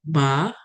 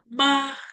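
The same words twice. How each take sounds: First: The pitch rises upward. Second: The pitch stays level and flat. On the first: It means hemp. "yang naik, nadanya naik" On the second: It means mother. "Nada pertama, ma"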